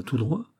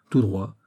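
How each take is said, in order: First: "Tout droit?" with a rise at the end; questioning. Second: "Tout droit." falling at the end; confirming. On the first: Porthos checks the route with Athos, questioning. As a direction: ask "Tout droit?", lifting on droit. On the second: Athos confirms the route to Porthos, confirming. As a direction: answer "Tout droit." as a statement, dropping on droit. Answer repeats the question. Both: A narrator's reading.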